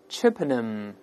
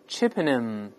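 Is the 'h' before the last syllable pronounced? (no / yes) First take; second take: no; no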